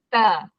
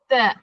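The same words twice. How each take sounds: First: The vowel ends openly without a glottal stop. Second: The vowel ends with a sharp glottal stop. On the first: The letter carries a vowel mark. "ta baris atas ... hilang hamzah" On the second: The letter is named on its own without a vowel mark. "kalau huruf tu tak ada baris, sebutannya ta ... ta alif hamzah"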